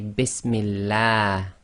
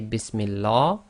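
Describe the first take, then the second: First: The l is light and thin. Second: The l is heavy, with a full mouth. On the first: The speaker calls it right. "you must say Bismillah ... tarqiq, that is light" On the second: The speaker calls it wrong. "You cannot say Bismillah"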